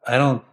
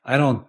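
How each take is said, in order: Both takes have the same delivery.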